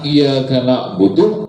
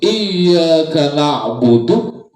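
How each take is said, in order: First: The y sound is short and single. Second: The y sound is held long and doubled. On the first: It means the sunlight we worship. The speaker calls it wrong. "Kalau dihilangkan tasdidnya maka artinya itu berubah" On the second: It means you alone we worship. The speaker calls it right. "itu ya ada tasdidnya"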